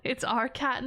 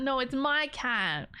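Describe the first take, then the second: First: Said in the usual way. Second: My leaned on slowly in No, it's my cat; slow down and press the word my; claiming the cat, my stressed. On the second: Shown as a demonstration. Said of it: "It's not our cat".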